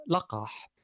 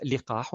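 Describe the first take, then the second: First: لقاح said laqah, with an a after the l; لقاح as laqah, the most correct form; لقاح with la-, open fatha; lam with fatha. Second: لقاح said liqah, with an i after the l; لقاح as liqah, kasra on the lam; permitted variant لقاح with li-. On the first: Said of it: "الأعلى والأفصح والأسهل". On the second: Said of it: "أحد المعاجم يجيز كسر اللام". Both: Shown as a demonstration.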